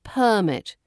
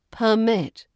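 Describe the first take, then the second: First: PERmit, stress up front; stress on first syllable. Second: PerMIT, stress at the end; stress on second syllable. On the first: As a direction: say "Permit" as the noun, PER-mit. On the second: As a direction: say "Permit" as the verb, per-MIT. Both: Shown as a demonstration. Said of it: "But as a verb".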